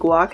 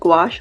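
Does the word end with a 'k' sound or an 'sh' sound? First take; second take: k sound; sh sound. First: The word ends with a 'k' sound. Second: The word ends with an 'sh' sound. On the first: The speaker calls it wrong. "Last time I pronounced guac" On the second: The speaker calls it right. "I know it's pronounced gouache"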